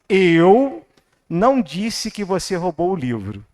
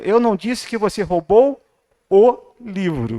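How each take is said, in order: First: The word eu is stressed. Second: The word livro is stressed.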